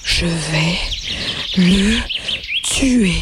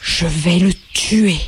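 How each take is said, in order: First: Low, gasping threat through lost breath; a dying rabbit wheezing a threat; panting. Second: Slow, low spat-out threat; a hint of a battered rabbit snarling; spitting threat. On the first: Acted. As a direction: force each word out between pants. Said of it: "une voix haletante s'éleva". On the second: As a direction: spit the words through dirty whiskers. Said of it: "en crachant à travers ses moustaches".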